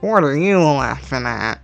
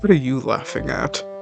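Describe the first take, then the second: First: It is said in a nasal voice. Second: It is said in a normal voice.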